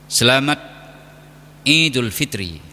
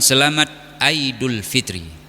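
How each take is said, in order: First: The second word begins with an 'ee' sound. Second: The second word begins with an 'eye' sound. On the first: The speaker calls it right. "Menyebutkan Id adalah dengan Id" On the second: The speaker calls it wrong.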